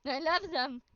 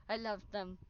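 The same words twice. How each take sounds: First: Said in the usual way. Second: Soft aside. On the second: Real, not acted.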